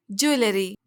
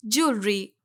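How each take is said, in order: First: ज्वेलरी drawn into three syllables, joo-e-lery; wrong pronunciation. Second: ज्वेलरी shortened to "jool-ree"; correct pronunciation. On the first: Teacher quotes how ladies say it, mispronounced. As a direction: say ज्वेलरी with every vowel sounded. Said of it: "जो कि गलत है". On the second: Teacher corrects the word, clearly pronounced. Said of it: "इसका सही pronunciation है". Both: Shown as a demonstration.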